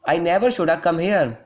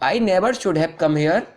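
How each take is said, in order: First: Should and have are blended into shoulda. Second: Should and have are said as two full words. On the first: "English slang का use कर सकते हैं" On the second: "आप इसको बोलते होंगे"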